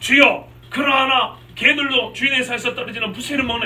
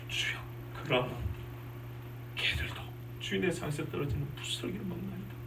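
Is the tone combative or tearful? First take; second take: combative; tearful. First: It sounds argumentative, as if quarreling. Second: It sounds tearful, trembling with overflowing emotion.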